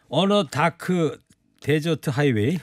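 It has an old Korean-style pronunciation. The speaker calls it wrong. "왜 갑자기 돌아가셨어 옛날 발음으로"

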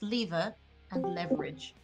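It is said with a British pronunciation. "in British English"

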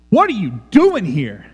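It is said in a harsh, pushing-away way. Get away from me, you are not welcome. The speaker calls it right. "This is the inflection of this text"

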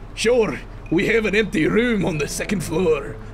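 It is spoken in a Southern-Scottish mixed accent. "Can you do a combo accent, like a southern Scottish accent?"

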